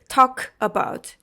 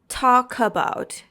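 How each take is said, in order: First: The two words are said separately, unlinked. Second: The two words are linked smoothly together. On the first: The speaker calls it wrong. "we don't say talk about" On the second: The speaker calls it right. "You should pronounce talk about"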